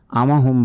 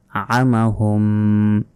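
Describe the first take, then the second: First: আমাহুম quickly with an ordinary open a; no throat squeeze in আমাহুম; short "amahum", no hum; wrong plain a. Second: আমাহুম slowly, first vowel squeezed from the throat; long hummed m ending আমাহুম; throaty ain. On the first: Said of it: "আমাহুম বলা যাবে না". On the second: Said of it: "গলার ভেতর থেকে". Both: Shown as a demonstration.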